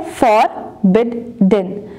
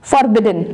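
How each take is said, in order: First: forbidden very slowly as फॉर, बिड, डन; three separate beats on forbidden, pausing after each; syllable by syllable. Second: Said in the usual way. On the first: Shown as a demonstration. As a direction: count out the syllables of forbidden one at a time. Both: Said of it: "three syllable word है".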